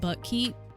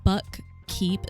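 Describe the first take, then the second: First: The two parts are run smoothly together. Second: Both parts are said separately and fully.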